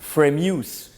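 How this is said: It is said with an American accent. "you Americans probably want to say Framus"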